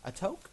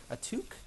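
First: "toque" said with a long o, like "toke"; unsure, high questioning "toque" with an oh vowel; trying a pronunciation. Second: "toque" said with an oo, like "took"; unsure, high questioning "toque" with an oo vowel; trying a pronunciation. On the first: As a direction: ask "toque" as "toke", rising. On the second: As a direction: ask "toque" as "tuke", rising. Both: Real, not acted. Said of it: "how to pronounce that".

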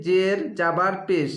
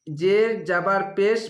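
The two takes are said the same way.

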